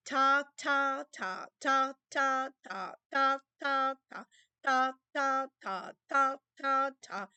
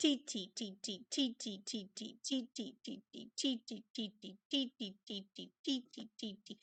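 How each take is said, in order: First: Steady, punched ta on each beat; accented rhythm syllables. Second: Much softer clipped T beats; soft rhythm syllables. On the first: Teacher demonstrating the accented beats to the class, firm punched ta. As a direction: count out the accented beats firmly. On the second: Teacher demonstrating the unaccented beats to the class, soft ticking T. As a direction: tap out the weak beats under your breath. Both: Shown as a demonstration. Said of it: "and you repeat".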